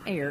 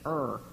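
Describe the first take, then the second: First: The word rhymes with air. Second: The word rhymes with her. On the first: The speaker calls it wrong. "not err" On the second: The speaker calls it right. "it's err"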